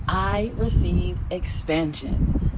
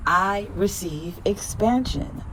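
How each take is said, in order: First: Very slow, settled affirmation. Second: Slow, rising affirmation. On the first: Repeating affirmation for viewers, very slow. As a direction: drag each word out and land it. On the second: Affirmation for viewers, slow with a lift. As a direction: stretch it out, lifting at the end. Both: Shown as a demonstration. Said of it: "Repeat after me".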